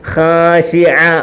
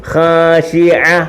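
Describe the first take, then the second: No difference in how they are said.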